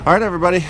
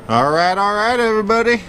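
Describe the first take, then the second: First: Said in the usual way. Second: Matthew McConaughey. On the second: Retold or imitated. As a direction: lean into a lazy, stretched-out all right. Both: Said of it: "Get a little Matthew McConaughey on you guys".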